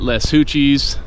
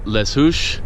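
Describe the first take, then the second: First: The name ends in an added 'oochies' sound. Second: The name ends in a short 'oosh' sound.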